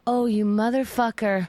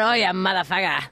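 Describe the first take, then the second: First: It is said in a light, friendly tone. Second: It is said in a harsh, hostile tone. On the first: The insult is harmless and acceptable. The speaker calls it right. "I can say" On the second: The insult is genuinely offensive. The speaker calls it wrong. "but not"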